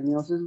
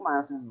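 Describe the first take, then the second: First: The first syllable sounds like 'mee'. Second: The first syllable sounds like 'my'. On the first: "মিওসিসের উচ্চারণ দুইটা, একটা মিওসিস বলে" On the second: "কেউ মায়োসিস বলে"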